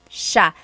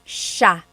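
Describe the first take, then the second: The two takes are said the same way.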